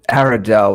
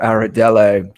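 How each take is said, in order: First: The name ends on the consonant, no final vowel. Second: The name ends with a pronounced final vowel.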